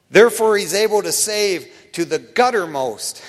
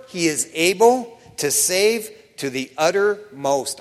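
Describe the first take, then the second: First: Guttermost said with a hard G before uttermost; a G added. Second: Said in the usual way. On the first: Shown as a demonstration. Preacher quoting Hebrews with his joke, guttermost with a hard G, a bit louder. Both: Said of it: "I like to add a G in front of that".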